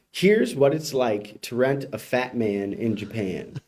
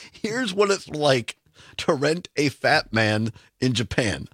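First: Headline read. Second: Slowly repeating the headline in disbelief; host repeating the headline, amused and incredulous. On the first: Shown as a demonstration. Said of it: "So headline reads". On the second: Real, not acted. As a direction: savour each word, baffled. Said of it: "Again, several questions".

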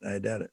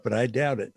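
First: Softer repeat, dropped to an aside; quiet aside. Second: Said in the usual way. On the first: Real, not acted. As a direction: mutter it again under your breath.

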